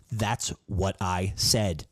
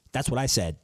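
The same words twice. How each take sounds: First: Slow, drawn-out self-quote. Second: Emphatic. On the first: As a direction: stretch it out slowly. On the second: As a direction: punch it with pride. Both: Shown as a demonstration.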